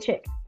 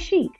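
First: It is said like 'chick', the Detroit way. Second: It is said like 'sheek', the outsider way.

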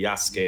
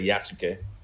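First: The final e is blended in softly. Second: The final e is pronounced distinctly. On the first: The speaker calls it right. "You just kind of meshes in the Yasuke" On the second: The speaker calls it wrong. "instead of"

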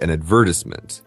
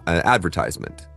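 First: It is said in a British accent. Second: It is said in an American accent.

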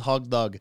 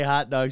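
First: The first word ends in a g sound. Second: The first word ends in a t sound. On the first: The speaker calls it wrong. "She says hog dog" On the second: The speaker calls it right. "My mom can't say hot dog"

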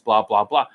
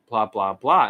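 First: It sounds steady and confident. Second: It sounds hesitant and unconfident.

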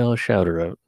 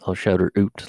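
First: The word out has a plain vowel. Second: The word out sounds like oot.

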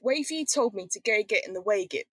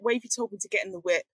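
First: Extra 'eg' syllables are inserted into the words. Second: The words are said without inserted syllables. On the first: The speech is disguised from outsiders. "isolated all these eggs" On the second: It is plain, undisguised speech. "they take the eggs out"

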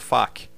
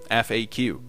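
First: It is said as a single word. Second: Each letter is said separately. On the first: The speaker calls it wrong. "Aqui no Brasil foi adotado como FAQ, mas jamais fale dessa forma com o estrangeiro" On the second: The speaker calls it right. "Pronuncie letra por letra"

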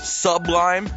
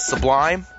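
First: The stress is on the first syllable. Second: The stress is on the second syllable. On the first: The speaker calls it wrong. "They emphasize the suh instead of the lie" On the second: The speaker calls it right. "instead of the lie"

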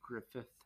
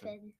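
First: The name ends with a th sound. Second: The name ends with an n sound. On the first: The speaker calls it right. "It's Griffith" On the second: The speaker calls it wrong. "you thought it was Griffin"

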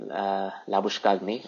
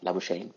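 First: The name is said in the speaker's own way. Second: The name is said in the local way.

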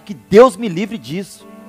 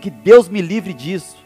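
First: It is said with more force and energy. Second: It is said with ordinary, low energy.

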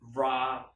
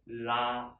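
First: It begins with an English-style R sound. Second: It begins with a tap, tongue slightly further back. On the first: The speaker calls it wrong. "if you use this R sound in English, then it sounds like this" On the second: The speaker calls it right. "move it a little bit, just inside. Then you can make this correct sound"

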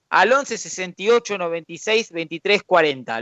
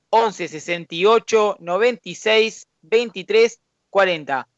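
First: It is said at normal speed. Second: It is said more slowly.

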